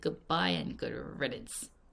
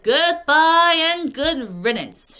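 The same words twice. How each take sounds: First: It is muttered quietly under the breath. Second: It is said in a normal, clear voice.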